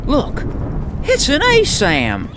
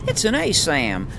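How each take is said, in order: First: Loud, high, sharp imitation of the voice actor; imitating Jake. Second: Weaker Jake imitation. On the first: Streamer imitating the voice actor for Jake, high and loud. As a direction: bark it out high like the character. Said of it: "the voice actor for Jake reminded me". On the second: Streamer retrying the Jake voice, less sharply. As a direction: try Jake again, toned down. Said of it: "I think I did better the first time".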